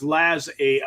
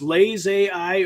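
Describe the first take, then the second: First: The first syllable has a short 'a' vowel. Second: The first syllable has a long 'ay' vowel. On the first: The speaker calls it right. "more like Lazarus" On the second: The speaker calls it wrong. "instead of Lay's"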